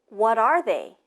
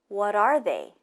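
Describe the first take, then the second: No difference in how they are said.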